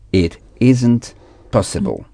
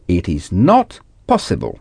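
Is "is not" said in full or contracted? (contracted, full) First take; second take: contracted; full. First: "Is not" is contracted into "isn't". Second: "Is not" is said as two full words.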